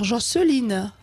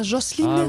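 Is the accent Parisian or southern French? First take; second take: southern; Parisian. First: It is said with a southern French accent. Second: It is said with a Parisian accent. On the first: The speaker calls it right. "Faut dire Jocelyne, avec l'accent" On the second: The speaker calls it wrong. "Pas Jocelyne"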